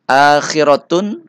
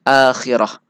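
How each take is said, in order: First: The word ends with a t sound and a vowel. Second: The word ends with a silent h sound. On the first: The reading continues without a stop. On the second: The reader stops on this word.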